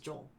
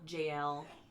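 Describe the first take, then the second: First: The name's ending is said like Michael's ending. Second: The name is said as two separate sounds, Jay-el. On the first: "If you pronounce it like Michael" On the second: "depends on how you want to pronounce it"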